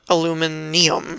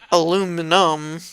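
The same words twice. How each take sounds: First: The word is said with an extra i sound. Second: The word is said without the extra i sound. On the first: "an extra I, so it's like aluminum and then aluminum" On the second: "so it's like aluminum"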